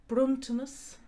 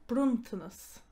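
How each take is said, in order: No difference in how they are said.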